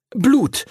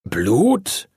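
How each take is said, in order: First: High-pitched, relieved blurt. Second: Puzzled question with rising end; uncomprehending. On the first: Arthur finds an excuse for teacher, high relieved blurt. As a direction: blurt it out high, as the saving answer. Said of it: "sagte er dann erleichtert". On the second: Teacher echoes Arthur's excuse, puzzled rising question. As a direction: echo it back, not understanding at all. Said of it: "fragte Master Duncan verständnislos". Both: A narrator's reading.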